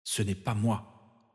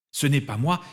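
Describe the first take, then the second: First: Soft, slow and fierce; "Ce n'est pas moi" slow and hushed, stress on "pas"; fierce inner thought. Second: "moi" higher with a rising end; defiant stress. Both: Acted. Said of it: "songea-t-il farouchement".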